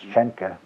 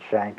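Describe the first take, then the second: First: The name is said with German sounds, two syllables. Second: The name is said as one English syllable. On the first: "In German it's Schenke" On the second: "we pronounce it Shank"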